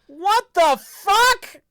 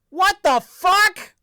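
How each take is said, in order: First: The voice goes up to a higher pitch. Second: The voice stays at a lower pitch.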